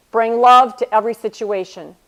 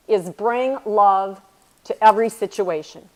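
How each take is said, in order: First: "Bring love to every situation" said out loud and firm, "love" punched; louder restatement. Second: Slow, deliberate stress on "love" in "bring love", then "every" falling; lingering on "love" to let the lesson land; slow emphasis. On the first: Repeating the mentor's motto to the audience, louder and firm. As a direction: proclaim the motto to the room. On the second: Sharing her mentor's lesson with the audience, slow and deliberate. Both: Shown as a demonstration. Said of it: "The most meaningful thing that she has ever taught me".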